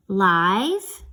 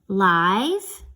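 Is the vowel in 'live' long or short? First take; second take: long; long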